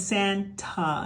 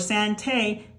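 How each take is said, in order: First: The final vowel is a weak 'uh' sound. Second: The final vowel is a long 'ay' sound. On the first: The speaker calls it right. "it's saying Santa" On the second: The speaker calls it wrong. "it's not saying a"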